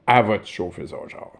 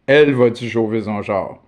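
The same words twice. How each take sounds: First: The first word is reduced to "a". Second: The first word is said in full as "elle".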